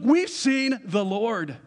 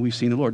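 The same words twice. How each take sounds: First: It is said in an excited, eager way. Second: It is read in a flat, plain way. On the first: The speakers are thrilled to share the news. The speaker calls it right. "how do you think they were telling him? Look" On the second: It is merely reported as a fact. The speaker calls it wrong. "don't say"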